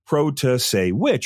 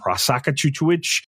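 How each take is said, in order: First: The surname is said in its usual standard form. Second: The surname comes out garbled with extra syllables. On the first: The speaker calls it right. "everybody realized how to pronounce it" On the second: The speaker calls it wrong. "everyone would get it wrong"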